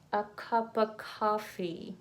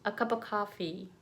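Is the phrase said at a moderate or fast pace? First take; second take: moderate; fast. First: The phrase is said at a moderate pace. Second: The phrase is said at a faster pace. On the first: "Repeat after me" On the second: "A little faster"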